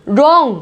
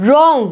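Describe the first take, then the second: Both takes have the same delivery.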